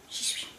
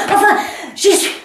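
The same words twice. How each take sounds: First: Barely audible afterthought of "j'y suis"; woman fading out after arriving; faded. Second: Much higher cry of arrival; woman finally getting there; triumphant. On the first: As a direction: let "j'y suis" die away to almost nothing. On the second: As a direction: announce it in triumph. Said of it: "j'y suis presque". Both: Acted.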